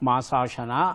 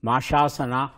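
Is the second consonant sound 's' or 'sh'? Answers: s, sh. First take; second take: s; sh. First: The second syllable starts with an s sound. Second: The second syllable starts with an sh sound. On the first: The speaker calls it right. "ಮಾಸ plus ಅಶನ" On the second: The speaker calls it wrong. "ಅನೇಕ ಜನ ಹೇಳೋ ಹಾಗೆ"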